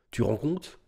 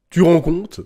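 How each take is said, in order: First: Softer stunned question; understated disbelief. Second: Loud, higher incredulous question; outraged disbelief. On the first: Stunned rhetorical question, first take. (incrédulité retenue) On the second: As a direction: throw it out louder, voice jumping up. Same question repeated, emphatically. (incrédulité forte, indignée) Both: Real, not acted.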